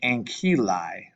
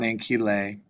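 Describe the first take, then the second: First: The final vowel sounds like 'eye'. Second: The final vowel does not sound like 'eye'. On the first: The speaker calls it right. "to make the sound I" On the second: The speaker calls it wrong.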